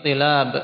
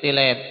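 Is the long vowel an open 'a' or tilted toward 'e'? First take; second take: open a; toward e. First: The long vowel is an open a sound. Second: The long vowel leans toward an e sound. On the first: "Seperti tilab" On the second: "menjadi tilab"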